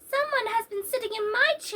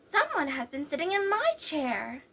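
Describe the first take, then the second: First: It is said in a wee little voice. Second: It is said in a middle-sized voice.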